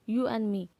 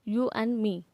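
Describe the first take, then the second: Both takes have the same delivery.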